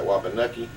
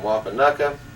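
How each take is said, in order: First: The name ends in an 'ee' vowel. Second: The name ends in an 'uh' vowel. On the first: This is a local way to say the name. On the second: This is the usual way to say the name.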